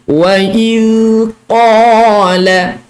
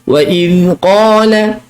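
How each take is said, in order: First: It is recited slowly, each sound drawn out. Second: It is recited quickly, sounds running together. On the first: "saya tunjukkan ni dalam dalam dalam kata kelajuan tahqiq" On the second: "bila kita baca laju"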